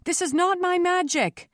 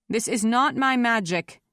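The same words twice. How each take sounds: First: High, insistent cry of denial; shouting over uproar. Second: Firm, controlled denial, a little raised; loud and calm. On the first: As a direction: pitch it above an angry crowd. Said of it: "trying to pitch her voice above the angry roar". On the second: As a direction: project it calmly to a crowd. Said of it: "her voice loud and calm". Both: A narrator's reading.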